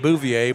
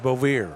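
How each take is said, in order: First: The name is said with a French-sounding pronunciation. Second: The name is said with a plain English pronunciation. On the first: Others said it this way. The speaker calls it wrong. "They tried to pronounce it" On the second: This is how the family says it. The speaker calls it right. "I was told it was"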